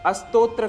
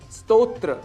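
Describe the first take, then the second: First: An extra vowel sounds before the s. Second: The word starts directly with the s sound. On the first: The speaker calls it wrong. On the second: The speaker calls it right.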